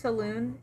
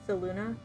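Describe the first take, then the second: First: The name ends on the N sound. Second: The name ends with an added vowel syllable. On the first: This is how the group says it. "we pronounce it as saloon in the um, in the campaign" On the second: This is the official way to say it. "the official pronunciation according to Baldur's Gate"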